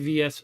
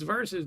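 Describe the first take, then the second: First: It is read out as two separate letters. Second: It is said as one full word. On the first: The speaker calls it wrong. "He would call it Spy V S Spy" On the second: The speaker calls it right. "no, it's Versus, dude"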